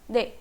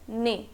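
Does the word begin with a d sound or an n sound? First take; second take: d sound; n sound. First: The word begins with a d sound. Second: The word begins with an n sound. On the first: The speaker calls it right. "But what it sounds like" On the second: The speaker calls it wrong. "रोमनाइजेशन देखें अगर तो इसका है ने"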